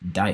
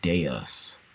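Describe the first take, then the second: First: It is said as one syllable, like 'dice'. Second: It is said as two syllables, like 'day-us'. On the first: The speaker calls it wrong. "Dice? Dice. How do you pronounce that word?" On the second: The speaker calls it right. "Looks like Deus. Okay, Deus. My bad"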